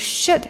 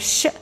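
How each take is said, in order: First: The word is said in full form. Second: The word is reduced, with sounds dropped.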